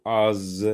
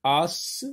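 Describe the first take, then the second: First: As drawn out, ending in a buzzed z; Z sound ending. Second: As drawn out, ending in a hissed s; S sound ending. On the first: Teacher offering pupils the other reading, as with a Z. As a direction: stretch as into a voiced zzz. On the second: Teacher offering pupils the first reading, As with an S. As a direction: stretch As into a sharp sss. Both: Shown as a demonstration. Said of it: "S se prononce Z".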